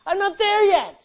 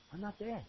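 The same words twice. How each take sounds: First: High, loud pulpit holler; full-voiced, high-pitched cry; shouted admission. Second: Much softer, confessional aside; hushed confession; quiet admission. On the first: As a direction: shout the confession out. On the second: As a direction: admit it softly. Quiet admission of falling short. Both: Real, not acted.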